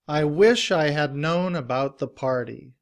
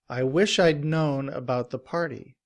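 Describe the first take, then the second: First: The word "had" is said in full with H. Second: The word "had" is reduced and joined to I. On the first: "In citation form" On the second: "In reduced form, we drop the sound of the H"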